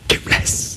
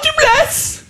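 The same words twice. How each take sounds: First: It is whispered. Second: It is said aloud in full voice.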